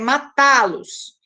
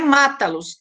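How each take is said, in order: First: The stress is on the second syllable. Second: The stress is on the first syllable. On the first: The speaker calls it right. "com T, forma a sílaba que tem uma pronúncia mais forte" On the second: The speaker calls it wrong. "não é mata-los"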